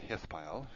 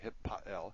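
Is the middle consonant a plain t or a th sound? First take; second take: th sound; plain t. First: The middle consonant is a th sound. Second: The middle consonant is a plain t sound.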